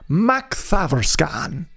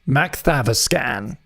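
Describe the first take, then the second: First: The name is said in an Irish accent. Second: The name is said in a plain accent.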